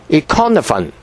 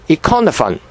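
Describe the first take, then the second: The two takes are said the same way.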